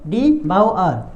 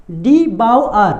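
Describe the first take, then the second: First: Said in the usual way. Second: "डी बाउ आर" said slowly and a bit louder, each part separate; model pronunciation. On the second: Shown as a demonstration. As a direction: spell out "डी बाउ आर" slowly, syllable by syllable. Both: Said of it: "क्या पढ़ेंगे इसको".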